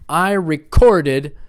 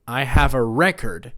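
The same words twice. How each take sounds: First: Slow, loud recorded as ri-CORD-ed; recorded punched mid-word, slowly; second-syllable stress. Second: Record as REK-erd; the noun record, stressed up front; first-syllable stress. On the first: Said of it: "to write down the information is record". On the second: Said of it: "The noun is on the first syllable". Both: Shown as a demonstration.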